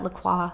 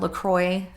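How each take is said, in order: First: The name is said in a European style. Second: The name is said in an American style. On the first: "I like to say it that way. That's just that's how Europeans say it" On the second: "as Americans say"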